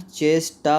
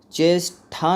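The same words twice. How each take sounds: First: "चेष्टा" slowed, with unaspirated "ṭa"; correct pronunciation. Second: "चेष्टा" with aspirated "ṭha" ending; wrong pronunciation. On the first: Teacher models the right word, "चेष्टा" ending in plain "ṭa". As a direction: say "चेष्टा" slowly as "chesh-ta". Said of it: "होता है". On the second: Teacher rejects a misspelling, "चेष्टा" drawn out with a wrong "ṭha". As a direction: say "चेष्टा" slowly as "chesh-tha". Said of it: "नहीं होता है". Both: Shown as a demonstration.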